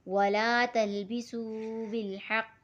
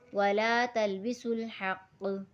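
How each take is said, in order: First: The 'su' is said separately before the next word. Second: The 's' is linked directly to the 'l'. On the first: The speaker calls it wrong. "इसको यू सू करके नहीं पढ़ेंगे" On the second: The speaker calls it right. "सीन को लाम के साथ मिला के पढ़ना है"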